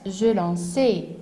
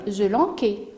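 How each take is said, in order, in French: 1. La consonne du milieu est un son s. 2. La consonne du milieu est un son k. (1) "j'ai besoin d'une cédille" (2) "je vais lire je lanquais"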